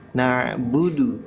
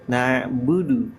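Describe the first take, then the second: No difference in how they are said.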